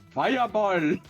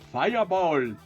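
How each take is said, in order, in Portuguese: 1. É dita com um sotaque indiano imitado. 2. É dita com um sotaque indiano imitado.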